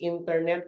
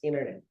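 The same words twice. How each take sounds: First: The T after the N is clearly pronounced. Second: The T after the N is dropped.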